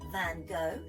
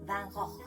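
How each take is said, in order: First: The name is said with English sounds. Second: The name is said with Dutch sounds. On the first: The speaker calls it wrong. "Some people say Van Gogh" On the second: The speaker calls it right. "in Dutch we have to pronounce it like this"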